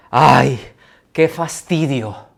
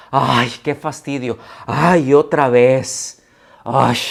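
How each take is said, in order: First: A read-out sigh of boredom, slow; bored ay, drawn out; weary sigh. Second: Loud, slow, groaning ay of boredom; louder drawn-out qué fastidio; exaggerated annoyance. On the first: Acted. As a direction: sigh the words as if tired of it. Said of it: "con signos de admiración". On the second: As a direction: ham up the fed-up sigh. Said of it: "La expresión es".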